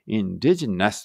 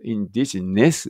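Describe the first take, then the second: First: "indigenous" ending in an a-like "nas"; open final vowel. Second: "indigenous" slowly, ending in a clear "ness"; final e sound. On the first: Teacher comparing final vowels for learners, nas-ending pronunciation. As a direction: say "indigenous" with the last syllable as "nas". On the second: Teacher showing what learners might hear, ness-ending pronunciation. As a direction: finish "indigenous" on a plain e, as in "ness". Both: Shown as a demonstration. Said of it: "言ってるように聞こえるけど".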